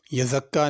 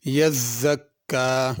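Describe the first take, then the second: First: यज़क्का with a light single z, no doubling; wrong single z. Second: यज़्ज़क्का slow with the z and k both doubled. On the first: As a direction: say यज़क्का without the shadda on z. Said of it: "यज़क्का नहीं पढ़ना". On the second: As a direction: lean on both shaddas in यज़्ज़क्का. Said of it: "दोनों शद भी सही अदा करनी है". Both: Shown as a demonstration.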